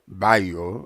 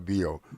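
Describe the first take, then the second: First: The name is said the local way. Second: The name is said the West African way. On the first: "the way we pronounce it here" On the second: "in Africa we'll call it Bio"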